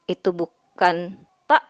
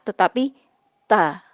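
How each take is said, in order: First: The vowel ends abruptly with a glottal stop. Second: The vowel ends openly with no glottal stop. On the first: The speaker calls it wrong. "bukan ta ketika dia sudah diberi fathah" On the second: The speaker calls it right. "Tidak ada e-nya kalau sudah diberi fathah"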